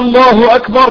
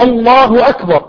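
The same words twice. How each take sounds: First: It is drawn out and sounds like a question. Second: It is said straight, like a plain statement. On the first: The speaker calls it wrong. "يمدها كده الله اكبر، كانه استفهام" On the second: The speaker calls it right. "الله اكبر على طول"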